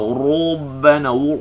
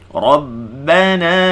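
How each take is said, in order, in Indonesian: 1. Huruf r dibaca dengan bibir maju ke depan. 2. Huruf r dibaca tebal dengan bibir tidak maju ke depan. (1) "Ra jangan baca rabbana, jangan muncul" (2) "ra baca tebal"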